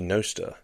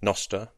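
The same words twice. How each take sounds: First: The first vowel is a long O. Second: The first vowel is a short O. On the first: "Given that it's notes and other stuff transmitted by relays" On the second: "I'd probably go for a short O"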